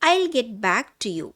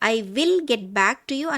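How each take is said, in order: First: 'I will' is shortened to one syllable, 'I'll'. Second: 'I will' is said as two full words. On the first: The speaker calls it right. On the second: The speaker calls it wrong.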